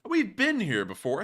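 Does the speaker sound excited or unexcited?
unexcited. It is said in a flat, unexcited way.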